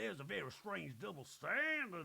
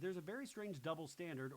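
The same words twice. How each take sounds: First: It is said in an imitated, put-on voice. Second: It is said in a plain, natural voice. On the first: "When Sutton says it's like" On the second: "when I say it in my regular voice"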